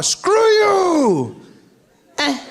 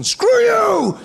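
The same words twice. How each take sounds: First: High, drawn-out shout; weaker mock yell. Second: High, loud shout; slamming down a landline, loud high yell; mock phone yell. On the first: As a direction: yell it with no phone to slam. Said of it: "there's no sense of power". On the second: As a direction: yell it as you slam the phone. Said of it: "where you get to tell the person".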